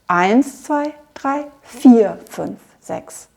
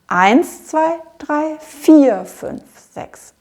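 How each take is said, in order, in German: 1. Betont werden die Zählzeiten eins und vier. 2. Betont werden die Zählzeiten eins und vier.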